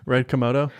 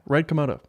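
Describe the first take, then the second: First: The phrase is said at an ordinary pace. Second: The phrase is said very quickly, words blurred.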